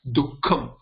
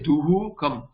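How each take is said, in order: First: The h sound is cut short before k. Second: A full h sound with an echo vowel. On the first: The speaker calls it right. "It is like half. It is cut down into half" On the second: The speaker calls it wrong. "you don't say duhu kam"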